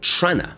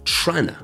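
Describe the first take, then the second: First: The words blend into one short reduced form. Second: The words blend into one short reduced form.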